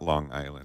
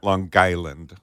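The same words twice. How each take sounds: First: It is said plainly without the local accent. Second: It is said in the local regional accent. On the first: This is how outsiders say the name. The speaker calls it wrong. "It's not Long Island" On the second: This is how locals say the name. The speaker calls it right. "you're supposed to say it, as I found it"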